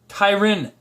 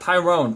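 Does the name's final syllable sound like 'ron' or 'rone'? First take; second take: ron; rone. First: The final syllable is said as 'ron'. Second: The final syllable is said as 'rone'. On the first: The speaker calls it right. "But it's Tyron" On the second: The speaker calls it wrong. "not Tyrone"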